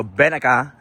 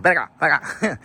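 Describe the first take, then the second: First: Said in the usual way. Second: Mock version of the call; imitating own dog call. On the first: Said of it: "it sounds like". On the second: Shown as a demonstration. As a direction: replay the call in a put-on voice. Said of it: "but it sounds like".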